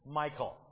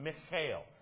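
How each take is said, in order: First: The name has an American English pronunciation. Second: The name has a Hebrew pronunciation. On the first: "the way we as Americans pronounce it" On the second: "that's how they would pronounce her name"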